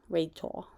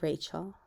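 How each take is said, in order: First: The name has a childlike speech error in it. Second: The name is pronounced clearly in the standard way. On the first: This is how it came out when struggling as a child. The speaker calls it wrong. "I couldn't even say my name as Rachel. Rachel instead of" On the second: This is how the name should be said. The speaker calls it right. "instead of Rachel"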